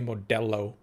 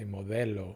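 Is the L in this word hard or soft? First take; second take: hard; soft. First: The L is pronounced hard. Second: The L is pronounced soft. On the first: The speaker calls it wrong. "Don't say Modelo" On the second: The speaker calls it right. "you got to soften the L"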